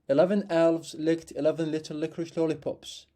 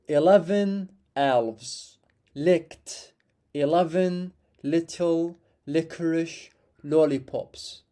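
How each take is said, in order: First: It is said a bit faster. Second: It is said slowly.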